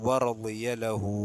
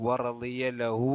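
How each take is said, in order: No difference in how they are said.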